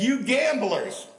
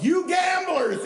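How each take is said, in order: First: Slow, loud, high preacher's cry; preacher's shout. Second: Slow, much higher, loud preacher's cry; preacher's shout. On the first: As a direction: call out the gamblers from the pulpit. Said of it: "Billy Sunday got in the pulpit". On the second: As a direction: hurl it out again from the pulpit. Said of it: "he said right then". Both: Retold or imitated.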